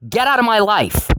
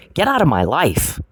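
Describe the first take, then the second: First: Pitched way up, fed up and furious; angry high voice. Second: Said in the usual way. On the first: Real, not acted. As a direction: fling it at him, done with him. Escalating confrontation, repeated demand.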